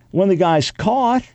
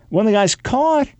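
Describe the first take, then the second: No difference in how they are said.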